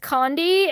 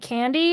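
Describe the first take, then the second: First: The first vowel sounds like 'o' in 'con'. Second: The first vowel sounds like 'a' in 'can'. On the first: The speaker calls it wrong. "I always keep trying to say it as condi" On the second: The speaker calls it right. "and not candy"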